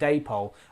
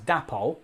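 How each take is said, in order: First: The first syllable sounds like 'day'. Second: The first syllable sounds like 'dap'. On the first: The speaker calls it right. "it should be pronounced Dapol" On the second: The speaker calls it wrong. "I used to pronounce it as Dapol"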